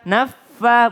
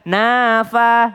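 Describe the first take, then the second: First: The f sound is doubled and held long. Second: The f sound is single and short. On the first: The speaker calls it right. "tasdid dari nun ke fa" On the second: The speaker calls it wrong. "bukan nafa"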